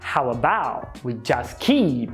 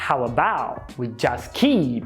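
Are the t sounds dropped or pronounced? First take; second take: dropped; dropped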